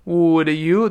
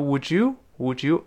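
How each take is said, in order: First: "Would you" as two separate words; careful "Would you", no blending; unlinked form. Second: "would you" blended as "wouldju"; "would you" run into one word; d+y becomes j. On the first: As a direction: clear d, then y in "Would you". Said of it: "the碰到耶一定变成j". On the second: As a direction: link "would you" with a j sound. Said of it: "一定变成j，j，j". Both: Shown as a demonstration.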